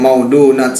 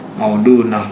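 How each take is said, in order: First: The word ends with a t sound. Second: The word ends with a soft h sound. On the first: The speaker calls it wrong. "berarti kalau orang wakufnya maudunat salah tuh ya" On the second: The speaker calls it right. "Tak marbuto soalnya kan"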